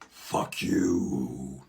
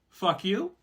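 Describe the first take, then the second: First: It is said in a scary way. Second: It is said like an inviting question.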